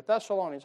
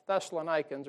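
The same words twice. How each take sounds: First: "Thessalonians" with long O and an "ee-unz" ending; usual pronunciation. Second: "Thessalonians" with a "nikans" ending, long I as in nine; alternative pronunciation. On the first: Preacher offering "Thessalonians" as thess-uh-LOH-nee-unz, the other option. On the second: Preacher trying out "Thessalonians" as thess-uh-luh-NIKE-unz, unsure. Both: Shown as a demonstration. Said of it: "however you say that thing".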